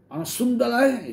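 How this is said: It is said in an angry tone. It is meant as an insult. "kalau dia bilang itu sambil marah bisa"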